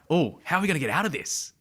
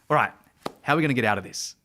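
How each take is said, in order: First: It sounds curious, with childlike wonder. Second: It sounds confident and authoritative.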